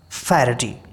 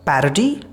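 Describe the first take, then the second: First: It has a British accent with an aspirated p. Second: It has an American accent with a softer p. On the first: "in British this per will be aspirated" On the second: "In American this is called parody"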